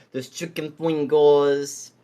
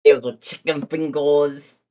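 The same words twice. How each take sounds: First: Put-on slow Brooklyn accent. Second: Put-on louder Brooklyn accent. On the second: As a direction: lay on a thick Brooklyn accent. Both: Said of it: "I'm saying this in a Brooklyn accent".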